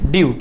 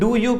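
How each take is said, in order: First: It is squeezed into a single syllable. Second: It is said as two separate syllables.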